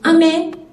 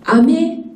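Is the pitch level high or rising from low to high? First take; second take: level high; rising. First: Both syllables are on a high pitch. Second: The pitch rises from low to high. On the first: "candy in Osaka Japanese is ame, H H" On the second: "is ame in Tokyo, L H"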